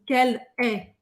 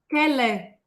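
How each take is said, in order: First: The two words are said separately. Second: The two words run together as one. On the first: The speaker calls it wrong. "a gente não vai falar assim" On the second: The speaker calls it right. "Quase uma palavra só"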